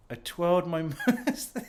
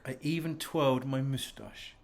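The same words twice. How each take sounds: First: Laughing through the line; giggling at his own silliness. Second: Said in the usual way. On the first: Real, not acted. Man alone on camera, laughing at his moustache.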